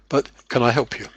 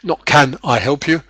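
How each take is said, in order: First: Can and I run together with linking. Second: Can and I are said as separate words. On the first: "this kind of linking"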